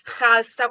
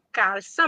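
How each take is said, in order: First: It begins with a rough throaty kh sound. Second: It begins with a plain hard k sound. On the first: The speaker calls it right. "un suono tipicamente arabo" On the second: The speaker calls it wrong. "pronunciamo in maniera errata"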